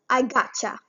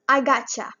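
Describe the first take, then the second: First: The words 'got you' blend into 'gotcha'. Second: The same.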